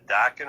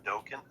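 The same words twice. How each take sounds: First: "Dokken" said DAH-ken; short-o Dokken. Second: "Dokken" said DOH-ken; long-o Dokken. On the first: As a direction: say "Dokken" with an open ah in the first syllable. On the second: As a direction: say "Dokken" with a long oh in the first syllable. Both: Shown as a demonstration. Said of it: "is it Dokken or Dokken".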